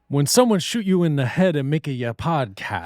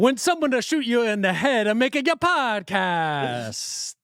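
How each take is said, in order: First: It has a mild, timid Italian-American accent. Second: It has a strong, exaggerated Italian-American accent.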